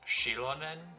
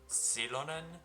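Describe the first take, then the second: First: The name begins with a sh sound. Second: The name begins with an s sound. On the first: "with an S H" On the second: "with an S"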